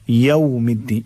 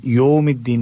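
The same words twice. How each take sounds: First: यौमिद्दीन opening with "yaw"; correct diphthong. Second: यौमिद्दीन opening with "yo"; wrong flat o. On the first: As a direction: glide from a to w in यौमिद्दीन. (यौमिद्दीन में "यउ" की आवाज़) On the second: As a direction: drop the glide in यौमिद्दीन. (यौमिद्दीन को "योमिद्दीन" पढ़ना) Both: Shown as a demonstration. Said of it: "यौमिद्दीन नहीं पढ़ना है".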